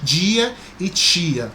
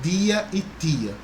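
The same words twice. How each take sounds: First: The d and t have a hushing, 'j'/'ch' sound. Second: The d and t sound plain, without a hush. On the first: This is how people in some other regions say it. "Tem esse chiadinho, esse chiado" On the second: This is how people in the speaker's region say it. "aqui em Maceió eu, eu pronuncio assim"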